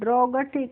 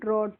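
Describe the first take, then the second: First: A g sound is pronounced before the final t. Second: No g sound is pronounced before the final t. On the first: The speaker calls it wrong. "इस तरीके से नहीं पढ़ते हैं" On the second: The speaker calls it right. "ड्रॉट पढ़ते हैं"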